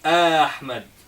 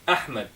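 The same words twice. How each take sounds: First: The first vowel starts smoothly without a catch. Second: The first vowel starts with a sharp glottal catch. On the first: The speaker calls it wrong. "We don't say" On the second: The speaker calls it right. "this one cuts"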